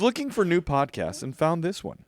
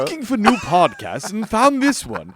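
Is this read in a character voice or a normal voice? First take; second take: normal voice; character voice. First: It is read in the speaker's normal voice. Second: It is read in a put-on character voice.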